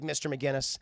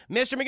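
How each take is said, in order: First: Said in the usual way. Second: Higher, louder name call; sharp, louder second call; raised-voice teacher call. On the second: Acted. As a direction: call a dozing student to attention. Teacher calls sleeping student again, louder.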